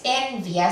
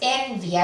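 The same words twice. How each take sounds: First: The i merges with a, stress on en. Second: The same.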